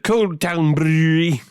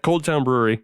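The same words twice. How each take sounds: First: It is said in a Scottish accent. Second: It is said in an American accent.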